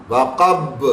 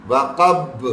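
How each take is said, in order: No difference in how they are said.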